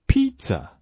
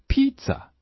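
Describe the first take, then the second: Both takes have the same delivery.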